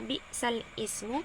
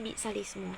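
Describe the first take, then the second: First: The two words are said separately, ismu starting fresh. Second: The two words are run together into one linked sound. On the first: This is the word as written. "kata bi'sal ismu" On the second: This is how it is actually recited. "dibaca menjadi"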